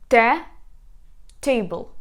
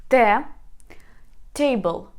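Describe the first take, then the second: The two takes are said the same way.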